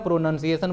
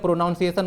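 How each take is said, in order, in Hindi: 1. दूसरा अक्षर 'nun' जैसा सुनाई देता है। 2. दूसरा अक्षर 'noun' जैसा सुनाई देता है। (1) "प्रोनाउंसिएशन बोलिएगा, ये आपका सही वर्ड है" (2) "प्रोनाउंसिएशन मत बोलिएगा"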